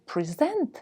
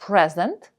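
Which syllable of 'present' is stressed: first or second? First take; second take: second; first. First: The stress is on the second syllable. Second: The stress is on the first syllable. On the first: It is a verb meaning to give. "дарувати комусь, наголос на другому складі" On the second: It is a noun meaning a gift. "наголос на першому складі, це є іменник-подарунок"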